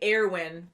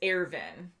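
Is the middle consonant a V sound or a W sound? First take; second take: W sound; V sound. First: The name is said with a W sound. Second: The name is said with a V sound. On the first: The speaker calls it wrong. "we were saying Erwin" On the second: The speaker calls it right. "but it's Ervin"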